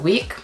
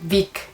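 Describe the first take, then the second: First: The word begins with a rounded W sound. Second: The word begins with a buzzing V sound. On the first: The speaker calls it right. "instead of week" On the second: The speaker calls it wrong. "week instead of"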